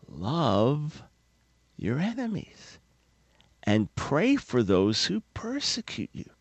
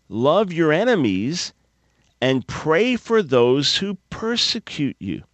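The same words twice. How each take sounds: First: Soft, slow, deliberate words; hushed repeat. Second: Said in the usual way. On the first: Shown as a demonstration. Preacher softly repeating the command to listeners. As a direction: breathe the command gently. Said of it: "repeats command softly".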